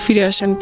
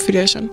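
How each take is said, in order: Both takes have the same delivery.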